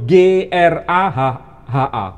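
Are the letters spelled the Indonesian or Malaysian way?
Indonesian. The letters are spelled out the Indonesian way. "Kalau kita menyebut"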